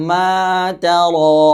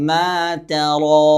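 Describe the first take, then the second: Both takes have the same delivery.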